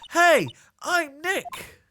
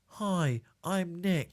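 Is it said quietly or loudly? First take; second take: loudly; quietly. First: It is said loudly. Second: It is said at normal, quiet volume.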